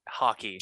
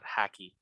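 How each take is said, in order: First: The first vowel is an open 'ah' sound. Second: The first vowel is a flat 'a' sound. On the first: The speaker calls it right. "not with an A" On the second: The speaker calls it wrong. "it's a very like Midwest"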